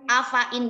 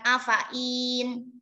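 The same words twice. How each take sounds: First: The extra ya sound is left silent. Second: The extra ya sound is pronounced. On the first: The speaker calls it right. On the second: The speaker calls it wrong.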